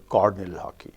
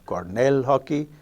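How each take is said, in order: First: Cornell is stressed on its first syllable. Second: Cornell is stressed on its second syllable. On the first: "The stress in the left word has shifted one notch on the left" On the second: "instead of"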